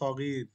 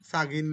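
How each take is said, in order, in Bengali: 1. প্রথম স্বরধ্বনিটি হ্রস্ব রাখা হয়। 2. প্রথম স্বরধ্বনিটি টেনে দীর্ঘ করে উচ্চারণ করা হয়। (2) "সাগির না"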